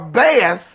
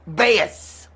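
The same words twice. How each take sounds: First: The word ends with a 'th' sound. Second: The word ends with an 's' sound. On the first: "The sound of T H" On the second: "for which they substitute S S"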